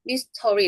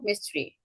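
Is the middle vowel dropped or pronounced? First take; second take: pronounced; dropped. First: The middle vowel is fully pronounced. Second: The middle vowel is dropped. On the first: The speaker calls it wrong. "mystery 이렇게 안 하고" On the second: The speaker calls it right. "mystery, mystery 이렇게 발음한다는 거예요"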